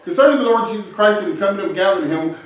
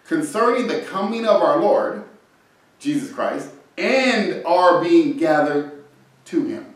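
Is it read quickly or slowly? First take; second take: quickly; slowly. First: It is read quickly, skimming over the words. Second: It is read slowly, word by word.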